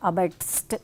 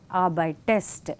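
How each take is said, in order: First: There is no vowel before the final st. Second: An extra e sound comes before the st. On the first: The speaker calls it wrong. "we cannot say arbeitst" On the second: The speaker calls it right. "here we have an extra E"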